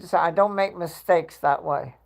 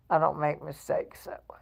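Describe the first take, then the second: First: Said in the usual way. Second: Hushed, unvoiced repeat; whispered aside. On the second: Real, not acted. Host repeating the boast to viewers, whispered. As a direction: drop to a low whisper.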